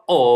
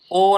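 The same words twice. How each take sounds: First: "ও" rounding off into a u sound. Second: "ও" held on one sound, without a final "u"; O as pure "o". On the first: Teacher correcting the letter O, "ও" as "ou". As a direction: say "ও" as a gliding "ou". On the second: Teacher showing what not to say, "ও" as pure "o". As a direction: say "ও" as a single vowel, no glide. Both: Shown as a demonstration. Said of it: "ও না বলে ও".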